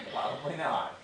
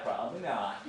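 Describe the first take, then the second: First: Chuckling through the words; laughing. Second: Said in the usual way. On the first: Real, not acted. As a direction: let a laugh spill into it. Laughing at own joke.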